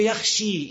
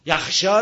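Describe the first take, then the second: First: "یخشی" with the last vowel a long ee; major imala. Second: "یخشا" ending in an open a; without imala. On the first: Teacher shows the changed form, "یخشی" with full ee. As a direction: finish "یخشی" on a held "shee". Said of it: "این یخشی اماله کبراست". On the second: Teacher cites the standard form, "یخشا" with final open a. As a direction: say "یخشا" as "yakhshaa". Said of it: "رو میگه یخشی". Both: Shown as a demonstration.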